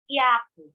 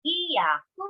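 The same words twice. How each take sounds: First: "yaku" with hi and ya merged into one syllable, hya; contracted. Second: "Hiyaku" with hi and ya as two full syllables; separate syllables. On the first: Teacher contrasting two words for learners, "yaku" contracted to hya-ku. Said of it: "making it sound like just one syllable". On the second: Teacher contrasting two words for learners, "Hiyaku" in separate syllables. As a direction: draw out "Hiyaku" as hi-ya-ku. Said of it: "listen to me so you would know the difference". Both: Shown as a demonstration.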